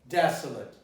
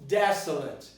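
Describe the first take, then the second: The two takes are said the same way.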